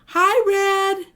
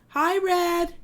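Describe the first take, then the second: First: It is said louder. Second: It is said at a normal, quieter volume.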